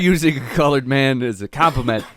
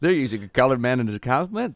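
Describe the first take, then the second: First: It sounds shocked at the term itself. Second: It sounds shocked at complimenting such a man. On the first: The phrase colored man is the offensive part. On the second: "back in the day, it was the same exact sentence, far different inflection"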